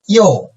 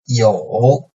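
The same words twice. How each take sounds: First: The pitch falls sharply from high to low. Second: The pitch dips low, then rises slightly.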